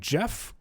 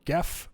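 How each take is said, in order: First: The name begins with a soft J sound. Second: The name begins with a hard G sound. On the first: The speaker calls it right. "it is pronounced Jeff. So pronounce it the correct way" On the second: The speaker calls it wrong. "however you want to pronounce it"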